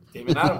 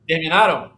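First: Said in the usual way. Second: Sharp, louder interrupting question; loud interruption. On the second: Real, not acted. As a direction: cut in loudly to stop the chatter. Cutting into the others' banter.

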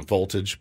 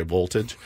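First: Said in the usual way. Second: "voltage" with a W sound at the start; Russian pronunciation. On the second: Shown as a demonstration. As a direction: say "voltage" as "woltage". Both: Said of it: "but they say voltage".

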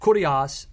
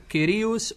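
First: Kurios with "oo", KOO-dee-ahs; first vowel of kurios as "oo"; Erasmian pronunciation. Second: Kyrios with "ee", KEE-ree-oos; first vowel of kyrios as "ee"; modern Greek pronunciation. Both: Shown as a demonstration. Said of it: "you wanna pronounce it".

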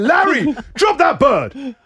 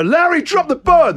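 First: High, slow, firm plea; mock reasoning with the cat. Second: Higher, louder order to the cat; louder command. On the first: Owner pleading with his cat to drop the bird, high and slow. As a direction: coax the cat to let go, slowly. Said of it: "I had to try to reason with him". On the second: Retold or imitated. Owner ordering his cat to drop the bird, louder. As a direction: raise it to a real command.

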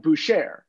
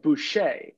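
First: "Boucher" said as boo-SHARE, with the r sounded; imitated mispronunciation. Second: "Boucher" said as boo-SHAY, silent r; French pronunciation. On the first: Co-host quoting the host's error, "Boucher" as boo-SHARE. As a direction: mimic a half-French "Boucher", ending like share. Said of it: "but you said, like". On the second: Shown as a demonstration. Co-host offering the French option, "Boucher" as boo-SHAY. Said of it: "like, a French accent".

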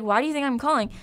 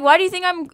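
First: Said in the usual way. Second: Exasperated. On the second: Retold or imitated. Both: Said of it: "literally, I was like".

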